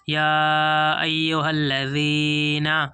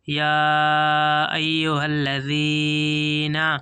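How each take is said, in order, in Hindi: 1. यह व्यंजन dh की आवाज़ जैसा बोला जाता है। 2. यह व्यंजन dh की आवाज़ जैसा बोला जाता है।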